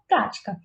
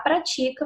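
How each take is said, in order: First: The stress is on the first syllable. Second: The stress is on the second syllable. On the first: It is the noun meaning a practice. The speaker calls it wrong. "na primeira sílaba da palavra prática, ele colocou o acento" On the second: It is the verb meaning we practice. The speaker calls it right. "Se ele não colocasse esse acento"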